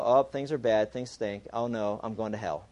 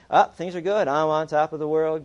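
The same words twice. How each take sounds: First: Mock gloom. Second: Mock elation. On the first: Believer when things go bad. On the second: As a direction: play the on-top-of-the-world believer, louder. Believer when things go well.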